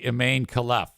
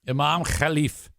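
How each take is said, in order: First: The name is said in an American way. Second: The name is said in a non-American way. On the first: The speaker calls it wrong. "If you want to pronounce it like uh, you're an American" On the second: The speaker calls it right. "I got the pronunciation of that online, and that actually is correct"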